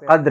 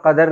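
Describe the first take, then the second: First: The d and r join with no vowel. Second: The word has a vowel between d and r. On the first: It means value or appreciation. The speaker calls it right. "वहां पे कद्र होता है" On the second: It means an amount or measure. The speaker calls it wrong. "वहां पर कदर नहीं होता"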